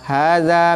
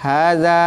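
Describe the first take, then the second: First: The middle consonant is a soft dh sound. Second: The same.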